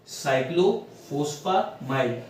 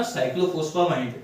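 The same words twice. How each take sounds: First: साइक्लोफॉस्फामाइड split slowly into its parts, falling at the end; syllable by syllable. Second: Said in the usual way. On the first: Shown as a demonstration. Teacher breaking a drug name into parts for students. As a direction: sound out साइक्लोफॉस्फामाइड piece by piece. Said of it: "इसको ऐसे लिखिए". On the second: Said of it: "ये क्या बना?".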